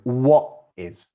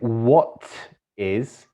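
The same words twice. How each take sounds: First: The t in 'what' becomes a glottal stop. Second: The t in 'what' is clearly pronounced. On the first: "it says what is" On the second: "instead of saying what is"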